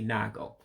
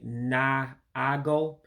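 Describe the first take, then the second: First: The second a-vowel is dropped, giving a short syllable. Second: Both a-vowels are pronounced, giving a longer first syllable. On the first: It is how ordinary people commonly say it. "The regular people would say nago" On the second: It sounds very formal and proper. "speaking very, very properly if you say naago"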